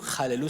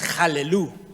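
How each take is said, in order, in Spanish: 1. El primer sonido es suave y ligero. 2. El primer sonido es duro y áspero. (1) "jalelú suave" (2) "la otra es jalelú, dura"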